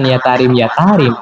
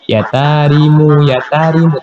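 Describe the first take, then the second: First: The word ends on the 'm' with no vowel. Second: The word ends with an added 'u' vowel. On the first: The speaker calls it wrong. "Itu harusnya bukan" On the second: The speaker calls it right. "tapi ... harusnya gitu"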